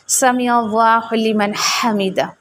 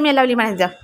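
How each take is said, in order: First: It is said slowly. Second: It is said fast.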